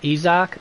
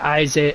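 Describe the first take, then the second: First: The name has an old Aramaic-style pronunciation. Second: The name has the usual English pronunciation. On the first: "I'm pronouncing it its original um, Aramaic pronunciation" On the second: "I know you guys are going to say Isaac"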